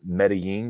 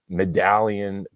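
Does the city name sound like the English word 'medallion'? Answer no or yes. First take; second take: no; yes. First: The name is said as Meh-deh-yeen, not medallion. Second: The name sounds like the English word medallion. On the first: The speaker calls it right. "apparently it's like Medellin or something" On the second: The speaker calls it wrong. "He's like Medallion"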